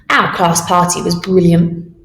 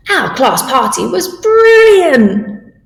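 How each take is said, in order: First: Said in the usual way. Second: Higher, slow and delighted; excited. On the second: Shown as a demonstration. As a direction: gush about the best party ever. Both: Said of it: "say it with feeling".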